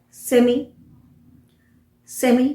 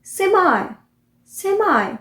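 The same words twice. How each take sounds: First: सेमी ending in a short "ee": SEM-ee; British pronunciation. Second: सेमाई ending in a high, long "eye": SEM-eye; American pronunciation. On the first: Teacher showing the simple variant, British pronunciation. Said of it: "British pronunciation है". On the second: Teacher showing how Americans say it, American pronunciation. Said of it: "Americans कैसे बोलते हैं". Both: Shown as a demonstration.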